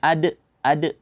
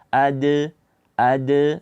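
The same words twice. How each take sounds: First: The final d is cut off with a glottal stop. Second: The final d is released with a slight bounce. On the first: The speaker calls it wrong. "membaca dengan hamzah" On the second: The speaker calls it right.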